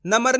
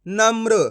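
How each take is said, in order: First: नम्र split as "na-mar", with an extra vowel before the r; wrong pronunciation. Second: नम्र with m and r joined, "namr"; correct pronunciation. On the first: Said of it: "नम्र नहीं पढ़ना". (नम्र को "नमर" की तरह गलत बोलें) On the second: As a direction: say नम्र with no vowel between m and r. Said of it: "कैसे पढ़ेंगे?". (नम्र में म और र जोड़कर बोलें) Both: Shown as a demonstration.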